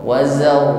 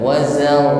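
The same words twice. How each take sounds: Both takes have the same delivery.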